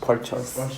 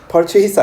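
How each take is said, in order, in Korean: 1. 두 번째 음절은 짧고 약한 'chis'예요. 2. 두 번째 음절은 온전한 'chase'예요. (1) "purchase야" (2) "purchase 아닙니다. ... chase 아닙니다"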